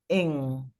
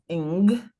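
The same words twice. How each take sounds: First: The G is swallowed, leaving a tiny hint. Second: The G at the end is fully pronounced. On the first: The speaker calls it right. "like you're swallowing the G with a little tiny hint of it" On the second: The speaker calls it wrong. "not ing"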